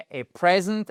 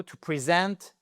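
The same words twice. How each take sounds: First: "present" stressed on PRE, short e like "prez"; noun stress first. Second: "To present" with stress on -SENT, first vowel "pri"; verb stress second. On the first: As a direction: say "present" with PRE-sent, first syllable loud. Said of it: "un cadeau". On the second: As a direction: say "present" as pri-ZENT, second syllable strong. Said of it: "l'accentuation elle shift". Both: Shown as a demonstration.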